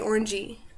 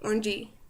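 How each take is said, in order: No difference in how they are said.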